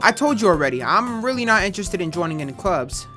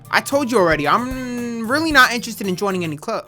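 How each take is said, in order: First: It is said in his natural voice. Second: It is said in a put-on girl's voice.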